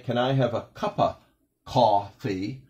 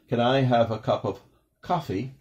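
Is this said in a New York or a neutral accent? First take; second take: New York; neutral. First: It is said in a New York accent with 'cuppa'. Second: It is said in a neutral accent with full 'cup of'. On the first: "a New York accent may say" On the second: "normal, you just might hear"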